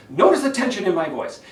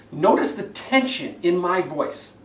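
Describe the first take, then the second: First: Strained, pressed and loud; tense voice, louder. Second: Strained and pushing; tense voice. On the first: Coach repeating the tense debate voice, strained. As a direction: tighten up and push. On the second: Coach demonstrating debate tension, strained delivery. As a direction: speak with tension in the throat. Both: Shown as a demonstration.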